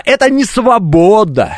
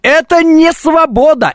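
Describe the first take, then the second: First: "это" punched, rest falling; stress on это. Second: "не" hit high, slow and drawn out; stress on не. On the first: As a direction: open strongly on "это". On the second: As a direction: lean hard on "не" in "Это не свобода". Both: Shown as a demonstration. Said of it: "Вот когда произносишь, э, не получается".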